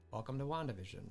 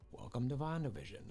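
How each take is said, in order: The two takes are said the same way.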